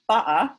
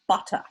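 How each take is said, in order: First: It is said in a London accent. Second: It is said in a posh English accent.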